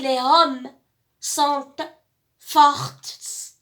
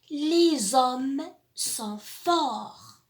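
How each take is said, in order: First: The final t of the last word is sounded. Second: The final t of the last word is silent. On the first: The speaker calls it wrong. "Est-ce que j'ai dit les hommes sont fortes? Non, bien sûr" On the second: The speaker calls it right. "Ces lettres, on les voit. Elles sont écrites, mais on ne les lit pas"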